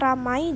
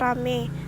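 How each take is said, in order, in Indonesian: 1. Kata ini berakhir dengan diftong ai. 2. Kata ini berakhir dengan vokal e biasa. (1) "Kata ramai" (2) "diucapkan rame"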